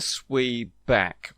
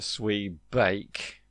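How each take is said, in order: First: The second syllable rhymes with 'back'. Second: The second syllable rhymes with 'bake'. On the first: "It is a swee back or a swee bake" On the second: "It is a swee back or a swee bake"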